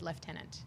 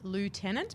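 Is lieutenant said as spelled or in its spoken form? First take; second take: spoken form; as spelled. First: The word is pronounced in its actual spoken form. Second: The word is pronounced the way it is written. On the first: "you actually pronounce it lieutenant" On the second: "it's spelled lieutenant"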